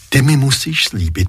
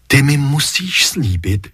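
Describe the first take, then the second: First: "mi" leaned on, the rest even; "Ty mi musíš slíbit" with weight on "mi"; stress on mi. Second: "ty mi musíš slíbit" with weight on "ty"; stress on ty. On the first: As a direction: press the word "mi" in the plea. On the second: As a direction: press the word "ty" in the plea. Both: A narrator's reading. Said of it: "mother repeats the plea".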